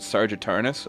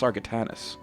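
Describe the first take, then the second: First: The name begins like the word 'sergeant'. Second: The name begins with the syllables 'sar-ga'. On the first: The speaker calls it wrong. "I've always pronounced it Sergeant Tarnus" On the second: The speaker calls it right. "it's Sargatanus"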